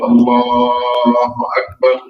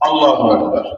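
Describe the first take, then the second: First: The phrase is drawn out slowly. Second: The phrase is rushed out very quickly. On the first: The one leading the prayer says it. The speaker calls it right. "ইমাম আস্তে আস্তে বলে" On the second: The follower says it and finishes too early. The speaker calls it wrong. "রকেটের গতিতে"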